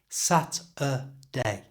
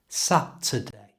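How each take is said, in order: First: The word is said slowly, syllable by syllable. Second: The word is said smoothly at normal speed.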